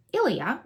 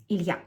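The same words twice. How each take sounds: First: Said in the usual way. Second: Ilya in two syllables, stress on the last; Ilya, Russian style, stress at the end. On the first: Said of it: "It would have two syllables, not three". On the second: Shown as a demonstration. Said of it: "the stress will be on the last syllable".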